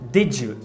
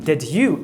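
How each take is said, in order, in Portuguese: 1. O d e o y se fundem em um som de j. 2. O d e o y continuam separados. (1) "ela diz did you" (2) "em vez dela dizer did you"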